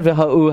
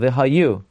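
First: The middle 'y' sound is dropped. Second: The middle 'y' sound is clearly pronounced. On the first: The speaker calls it wrong. "Not v'ha'u" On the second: The speaker calls it right.

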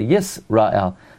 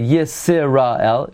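First: No vowel is sounded after the s. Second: A short vowel is sounded after the s. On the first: The speaker calls it right. "We say Yisrael. That's called the shva nach" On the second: The speaker calls it wrong. "We don't say Yisrael"

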